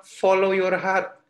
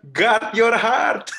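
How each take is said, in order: First: "Follow your heart" said slowly, word by word; quoting the world's advice, drawn out; slow quote. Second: "Guard your heart" very slow, louder, rising on heart; emphatic quote. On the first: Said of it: "Banyak orang bilang". (kutipan pelan, kata demi kata) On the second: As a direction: lay weight on "heart" like a verse. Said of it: "Alkitab bilang". (kutipan Alkitab, sangat pelan dan ditekankan) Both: Shown as a demonstration.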